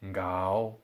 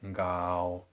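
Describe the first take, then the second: First: The pitch starts low and then rises. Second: The pitch stays low in the third tone. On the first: "followed by double three tones" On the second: "just three tones"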